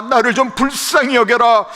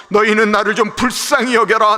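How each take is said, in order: First: More pleading for pity. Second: Pleading for pity. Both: Acted. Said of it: "자존심을 내려놓고 하는 말".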